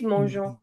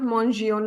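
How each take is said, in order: First: No extra vowel is voiced before the ending. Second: An extra vowel is voiced before the ending. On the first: The speaker calls it right. "It's mangeons" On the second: The speaker calls it wrong. "It's not mangions. Nobody's going to pronounce it as mangions"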